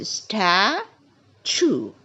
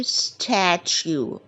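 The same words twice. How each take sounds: First: "statue" split slowly, STA... CHOO, no y-glide. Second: "statue" with a y-glide, STAT-YOO, drawn out; statue said wrong as "stat-you". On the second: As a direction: say "statue" the mistaken way, ending in "you". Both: Shown as a demonstration. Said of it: "We never say statue".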